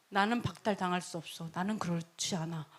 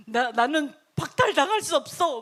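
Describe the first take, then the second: First: Low, soft royal certainty; quiet self-assurance. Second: Raised, insistent royal protest; emphatic self-assurance. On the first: King to priests about his right, quietly self-assured. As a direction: state it under your voice, fully sure. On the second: King to priests about his right, emphatically insistent. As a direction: push it out forcefully, refusing to doubt. Same king's words, emphatic second take. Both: Acted.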